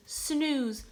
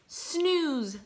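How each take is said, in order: Both takes have the same delivery.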